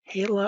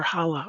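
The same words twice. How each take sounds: First: Hala with a long "ay" first vowel, HAY-la; tentative pronunciation. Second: Hala with an open "ah" first vowel, HAH-la; alternative pronunciation. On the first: Host guessing at a questioner's name, Hala said HAY-la. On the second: Host offering another guess at the name, Hala said HAH-la. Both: Real, not acted. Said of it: "I'm gonna say it wrong".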